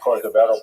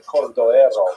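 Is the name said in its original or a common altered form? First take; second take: altered; original. First: The name is said in a common altered form. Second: The name is said in its original form. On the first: The speaker calls it wrong. "people pronounce it Cordovero by mistake" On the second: The speaker calls it right. "His name is actually Cordovero"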